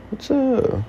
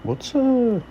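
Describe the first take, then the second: No difference in how they are said.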